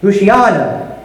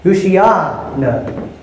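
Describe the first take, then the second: First: "Ushiana" as one word; joined Hebrew repeated. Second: "Ushiana" slow, run together hoo-shee-AH-no; slow Hebrew "Ushiana"; joined Hebrew. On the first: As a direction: repeat "Ushiana" a bit faster, falling. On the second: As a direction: blend "Ushiana" into one slow word. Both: Shown as a demonstration. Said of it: "it sounds something like this".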